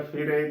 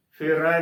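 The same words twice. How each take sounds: First: ਫਿਰੇ ending in a narrow long e, as 'ay'; close e ending. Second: ਫਿਰ ਰੈ as one word with open ai at the end. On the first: Teacher showing how congregations say it, ਫਿਰੇ with close e. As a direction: close the final vowel of ਫਿਰੇ. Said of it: "ਨਾ ਕਿ ਰਾਰੇ ਨੂੰ ਲਾਵਾਂ". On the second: Teacher prescribing the reading, ਫਿਰ ਰੈ with open ai. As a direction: open the vowel of ਰੈ wide. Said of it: "ਦੇ ਨਾਲ ਉਚਾਰਨ ਕਰਨਾ ਹੈ". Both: Shown as a demonstration.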